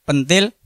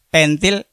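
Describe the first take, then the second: First: "pentil" with a schwa in the first syllable; pentil as young mango. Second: "pentil" with a clear e, péntil, ending on a rise; pentil as bicycle valve. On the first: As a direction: say "pentil" as pəntil, weak first vowel. ("pentil" nganggo e pepet, kaya pentil pelem) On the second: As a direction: say "pentil" as péntil, not with schwa. ("pentil" diucapké péntil, kaya pentil pit) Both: Shown as a demonstration.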